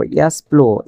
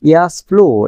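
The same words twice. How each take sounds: First: Said in the usual way. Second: ইয়াস প্লো said out loud with a clear fall on প্লো; teacher's loud model of ইয়াস প্লো; model pronunciation. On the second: Shown as a demonstration. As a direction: announce ইয়াস প্লো to the class. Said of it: "তখন বলবেন কি".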